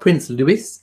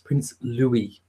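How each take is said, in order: First: The name is not said as Lou-we. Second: The name is said as Lou-we, ending in ee. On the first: The speaker calls it wrong. "it's not Prince Louis" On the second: The speaker calls it right. "it's Prince Louis"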